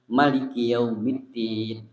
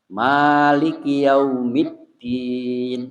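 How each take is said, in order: First: The first vowel of maliki is kept short. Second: The first vowel of maliki is drawn out long. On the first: "Maliki dibaca pendek" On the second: "itu maliki itu panjang"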